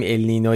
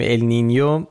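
First: «النینو» with a plain n, no y glide; common Persian pronunciation. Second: «النینیو» with a ny glide before the o; correct pronunciation. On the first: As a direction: say «النینو» ending in a simple -no. («النینو» با نون ساده، بدون صدای ی) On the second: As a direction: say «النینیو» ending in -nyo. («النینیو» با صدای «نیو» در آخر) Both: Shown as a demonstration.

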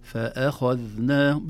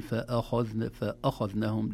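First: فأخذناهم slow, loud, light hamza before heavy خ; ترقيق الهمزة. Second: فأخذناهم with a dark, heavy "fa-a"; تفخيم الهمزة خطأً. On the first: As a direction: keep "fe-e" thin in فأخذناهم. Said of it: "لا، لا نفخم الهمزة". (فأخذناهم بهمزة مرققة بتأنٍ) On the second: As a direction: thicken the hamza of فأخذناهم like the خ. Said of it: "لا نقول". (فأخذناهم بهمزة مفخمة) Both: Shown as a demonstration.

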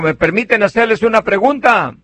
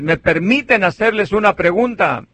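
First: Asking the congregation. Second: Retold repeat of the question, near his own voice; asking again. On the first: Retold or imitated. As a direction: call out to the pews asking permission. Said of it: "Y les digo". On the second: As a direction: ask the pews a second time, mildly. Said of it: "Luego otra vez".

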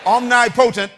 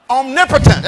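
First: "Omnipotent" as two words, OM-nye POH-tent; split pronunciation. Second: "Omnipotent" as one word, om-NIP-uh-tent; joined-up pronunciation. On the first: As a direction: say "Omnipotent" in its separate parts, omni plus potent. Word built from two parts, then pronounced. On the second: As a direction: say "Omnipotent" run together, stressed on NIP. Corrects to the usual pronunciation. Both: Shown as a demonstration.

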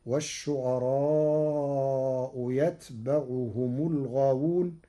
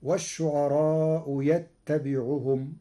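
First: "يتبعهم" as yatba'uhum, light unvowelled t; Warsh reading. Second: Said in the usual way. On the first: Shown as a demonstration. Sheikh shows Warsh's reading, "يتبعهم" pronounced yatba'uhum. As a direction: say "يتبعهم" with single silent-vowel ta and open ba. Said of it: "بتخفيف التاء ساكنة وفتح الباء". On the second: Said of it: "قرأ ورش كلمة يتبعهم".

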